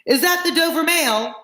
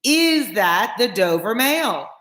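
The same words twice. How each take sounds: First: High voice calling from afar. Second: Slow, stretched question, raised pitch; insistent repeat. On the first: Rider in the mist to the coach, calling. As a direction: hail them in a high, stretched call. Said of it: "a man's voice called from the mist". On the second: Rider asking the guard once more, insistent. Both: A narrator's reading.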